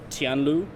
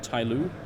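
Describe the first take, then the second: First: The name is said with a Chinese-style pronunciation. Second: The name is said with an English-style pronunciation.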